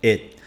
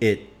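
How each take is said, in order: First: The final T sound is dropped. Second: The final T sound is dropped.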